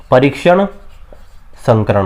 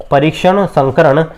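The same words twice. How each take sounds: First: परीक्षण rising, then a pause, then संकरण dropped low; term spelled out for students. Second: परीक्षण संकरण said slowly and evenly as one phrase; slow drilled term. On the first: Teacher breaking the term into two for the class to repeat. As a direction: split परीक्षण and संकरण with a beat between. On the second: Teacher repeating the term slowly for students to note. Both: Shown as a demonstration. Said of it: "क्या होता है?".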